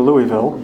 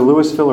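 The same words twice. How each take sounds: First: Louisville said as LOO-ee-vill; Louisville with silent S. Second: Louisville said as LOO-iss-vill. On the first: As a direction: drop the S in Louisville, like Louie-ville. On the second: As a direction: sound the S in Louisville, like Lewis-ville. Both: Shown as a demonstration. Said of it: "depending on who you talk to".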